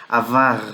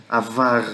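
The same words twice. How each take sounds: Both takes have the same delivery.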